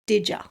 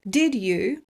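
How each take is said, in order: First: The D and Y merge into a J sound. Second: The D and Y are pronounced separately.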